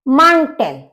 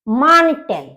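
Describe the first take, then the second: Both takes have the same delivery.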